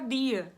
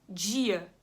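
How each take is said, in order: First: The d is plain, with no hissing sound. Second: The d is followed by a hissing sound. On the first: "se eu tirar, vai ficar dia" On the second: "eu arrasto aqui, tô arrastando aqui"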